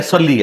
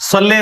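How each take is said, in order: First: صلی with a heavy s and a clear "ee" ending, "salli"; correct pronunciation. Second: صلی with a light s and an open "le" ending, "salle"; wrong pronunciation. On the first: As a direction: say صلی as "salli", full emphatic s. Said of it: "صلی ہے". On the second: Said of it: "صلی نہیں ہے". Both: Shown as a demonstration.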